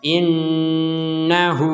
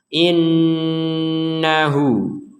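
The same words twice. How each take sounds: First: The final vowel is cut short. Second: The final vowel is held for two beats. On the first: The speaker calls it wrong. "Jadi tidak innahu hu" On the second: The speaker calls it right. "dibaca dengan panjang dua ketukan"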